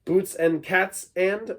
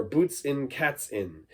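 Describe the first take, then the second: First: "Boots and cats and" said slowly with full "and". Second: "boots in cats in" slowly with reduced "in". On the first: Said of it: "You could say that too". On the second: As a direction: slur "and" into "in". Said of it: "It's almost like boots and cats in". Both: Shown as a demonstration.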